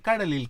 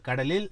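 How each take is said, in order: First: "கடலில்" falling from start to end; tune going down. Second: "கடலில்" lifted at the end; tune going up. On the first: Composer showing the wrong intonation, "கடலில்" falling. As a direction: drop "கடலில்" from up to down. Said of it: "can't be up to down". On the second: Composer showing the lyric's intonation, "கடலில்" rising. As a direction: let "கடலில்" rise on the last syllable. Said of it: "she has to go up". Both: Shown as a demonstration.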